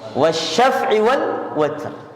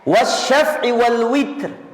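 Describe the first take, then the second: First: The last word is said with an 'a' vowel. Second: The last word is said with an 'i' vowel. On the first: This is the reading commonly used by the audience. "Tapi kalau kita" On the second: This is the reading of Hamzah, Al-Kisai and Khalaf. "bi kasril wawi"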